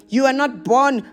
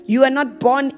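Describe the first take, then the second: No difference in how they are said.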